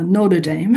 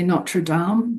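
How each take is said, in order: First: It is said the American way. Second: It is said the Australian way.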